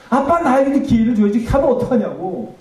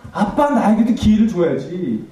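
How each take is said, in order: First: Much higher, loud wailing '아빠'; anguished wail. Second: Slow, louder pleading cry of '아빠'; imitated tearful cry. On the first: Retold or imitated. Daughter wailing at the funeral, higher and louder. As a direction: let the cry break upward in grief. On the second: Daughter begging her father for another chance, pleading cry. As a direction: plead with a dead father, voice rising. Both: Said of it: "내가 뭐라고 얘기했냐면".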